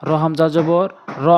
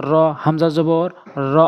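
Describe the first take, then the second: No difference in how they are said.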